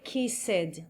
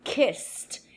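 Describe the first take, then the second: First: "kissed" said as kiss-ed, an extra syllable with a clear E; wrong pronunciation. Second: "Kissed." said as one syllable, ending in a T sound; one beat, close on a crisp T; right pronunciation. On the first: Teacher demonstrating the mistake to avoid: kiss-ed, two syllables. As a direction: sound the ED out as its own syllable, slowly. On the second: Teacher giving the correct past tense: kist, ending in T. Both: Shown as a demonstration. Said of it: "Don't say kissed, no".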